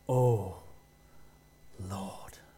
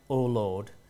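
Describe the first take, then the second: First: The vowels are drawn out in a put-on voice. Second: The vowels are short in an ordinary voice. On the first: It is a special voice used only for praying. "He said things like, ... Every vowel was lengthened" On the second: It is an ordinary way of speaking. "He didn't say things like"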